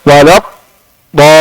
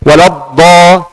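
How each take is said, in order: First: The d is cut off with a break. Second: The d is doubled firmly without flowing air. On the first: The speaker calls it wrong. "ini salah, bukan bukan kurang" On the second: The speaker calls it right. "ini kurang, tidak ada rakhawah... Tapi baca benar dengan syaddah"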